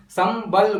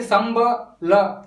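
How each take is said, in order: First: संबल as सम्-बल, with बल said together in one go; syllables joined. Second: संबल said with स, म, ब, ल each broken apart; syllables split apart. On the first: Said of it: "हम संबल बोल रहे हैं". (संबल को सम्-बल, बल को एक साथ जोड़कर) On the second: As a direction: break संबल into separate syllables, wrong way. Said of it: "संबल इस प्रकार से नहीं". (संबल को अक्षर अलग-अलग तोड़कर, गलत ढंग से) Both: Shown as a demonstration.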